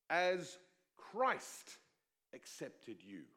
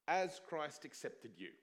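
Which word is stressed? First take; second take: Christ; you. First: The stress falls on the word Christ. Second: The stress falls on the word you. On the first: The focus is on the way of accepting. The speaker calls it right. "I think the focus should be on" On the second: The focus is on the person being accepted. The speaker calls it wrong. "It's easy to put the emphasis on"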